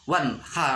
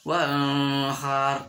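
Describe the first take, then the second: First: The n sound is pronounced distinctly. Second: The n sound is blurred, not distinct. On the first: The speaker calls it right. "harus jelas nun mati wanhar" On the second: The speaker calls it wrong. "dibaca wanhar, tidak boleh"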